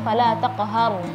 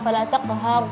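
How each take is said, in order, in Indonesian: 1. Q tebal diucapkan dengan bibir tidak membulat. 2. Q tebal diucapkan dengan bibir membulat. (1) "menebalkan huruf tidak boleh menggerakkan bibir" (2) "jangan fala taqhar, enggak"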